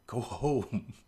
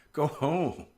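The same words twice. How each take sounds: First: Said in the usual way. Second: Higher, firmer go home with the stress on go; mock exasperated order; insistent repeat. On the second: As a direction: push it again, more urgent, with the pitch up.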